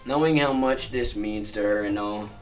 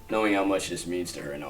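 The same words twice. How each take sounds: First: The ending sounds unfinished, as if continuing. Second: The ending sounds finished and closed. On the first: More is about to follow. The speaker calls it wrong. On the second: The thought is complete. The speaker calls it right.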